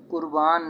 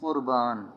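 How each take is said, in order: First: कुर्बान opening on an ordinary light k; wrong light k. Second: कुर्बान with q from deep in the throat; correct throaty q. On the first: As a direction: say कुर्बान as kurbaan, k out of the throat. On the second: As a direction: say कुर्बान as qurbaan. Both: Shown as a demonstration. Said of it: "इसे कुर्बान नहीं पढ़ेंगे".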